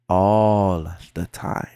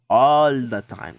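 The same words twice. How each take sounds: First: It is said more slowly. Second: It is said at normal speed.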